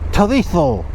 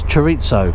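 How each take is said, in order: First: It is said with Spanish-style sounds. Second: It is read with plain English sounds. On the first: It tries to sound continental. The speaker calls it wrong. "If you are Spanish and you are living in Spain, you say chorizo" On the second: It is read literally as spelled. The speaker calls it right. "That says chorizo"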